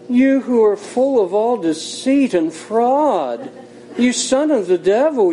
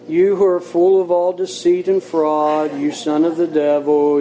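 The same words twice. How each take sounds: First: It is said softly, in a gentle pious tone. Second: It is said flatly, on one level pitch. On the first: The speaker is putting on a religious manner. "he could have said it very spiritually" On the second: The speaker does not feel what is said. "he could have said it in a monotone"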